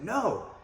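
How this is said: It is said with frustration.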